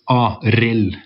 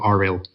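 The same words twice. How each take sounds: First: The R is pronounced as a sharp Norwegian R. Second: The R is pronounced as a soft English R. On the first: The speaker calls it right. "we have this sharp R" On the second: The speaker calls it wrong. "instead of"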